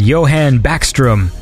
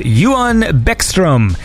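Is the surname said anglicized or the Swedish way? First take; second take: anglicized; Swedish. First: The surname is said with English-style vowels. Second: The surname is said with Swedish-style vowels. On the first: The speaker calls it wrong. "that is not how it is pronounced" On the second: The speaker calls it right. "which is how you say it?"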